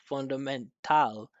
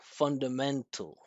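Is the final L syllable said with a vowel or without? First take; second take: with vowel; without vowel. First: The final L syllable keeps a full vowel. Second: The final L is syllabic, with no vowel. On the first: "he didn't pronounce fundamental" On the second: "He said fundamental"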